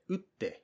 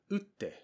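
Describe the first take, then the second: No difference in how they are said.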